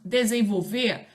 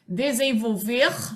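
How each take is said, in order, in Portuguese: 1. O R final é apagado. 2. O R final é pronunciado.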